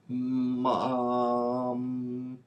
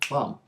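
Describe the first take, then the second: First: The word is sounded out slowly and effortfully. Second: The word is said quickly and smoothly. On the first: The reader is still decoding with effort. "At first, it's a very laborious process" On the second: The reader decodes the word automatically. "Then it becomes automatic"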